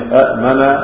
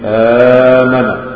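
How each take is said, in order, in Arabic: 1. تبدأ بهمزتين منفصلتين. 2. تبدأ بهمزة واحدة ومدٍّ طويل. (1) "إذا اجتمع في كلمة الهمزتان أولاهما متحركة والأخرى ساكنة" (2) "ما هنقول إيه؟"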